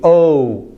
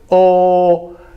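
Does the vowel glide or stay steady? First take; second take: glide; steady. First: The vowel glides as the mouth closes. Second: The vowel stays steady without mouth movement. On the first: "but then I continue" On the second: "that would be a Spanish O"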